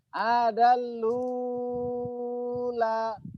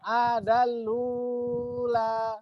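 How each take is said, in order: First: The long vowel is held for six counts. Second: The long vowel is held for four counts. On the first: "enam harokat"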